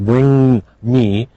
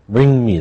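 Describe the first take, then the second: First: Both nasal sounds are pronounced separately. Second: The two nasal sounds merge into one. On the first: The speaker calls it wrong. "It's not bring me" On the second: The speaker calls it right. "if they come together, you only pronounce one of them"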